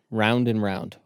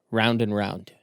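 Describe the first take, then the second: No difference in how they are said.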